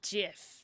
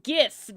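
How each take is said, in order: First: The word begins with a soft G sound. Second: The word begins with a hard G sound. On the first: The speaker calls it wrong. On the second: The speaker calls it right.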